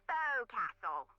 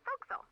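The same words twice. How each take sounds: First: Every syllable is said in full. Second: The syllables are squeezed into a shorter form. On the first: "Try pronouncing it like an English sailor with no formal education" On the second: "Over time it whittled down"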